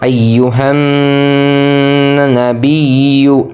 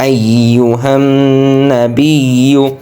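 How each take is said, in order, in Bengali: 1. n ধ্বনিটি নাসিক্য গুঞ্জনসহ টানা হয়। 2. n ধ্বনিটি নাসিক্য গুঞ্জনসহ টানা হয়।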